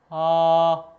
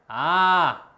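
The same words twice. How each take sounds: First: The vowel is produced further back inside the mouth. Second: The vowel is produced at the front of the mouth. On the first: The speaker calls it right. "여기서 내야 된다고" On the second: The speaker calls it wrong. "입으로 내게 되면"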